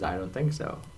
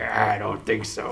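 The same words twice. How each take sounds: First: It is said in a normal voice. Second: It is said in a put-on pirate voice.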